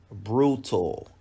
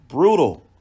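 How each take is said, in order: First: Said in the usual way. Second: BRUTAL punched out high and loud; emphatic repeat. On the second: Real, not acted. Boxing commentator on the final shots, emphatic BRUTAL. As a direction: hit BRUTAL hard, much higher and louder.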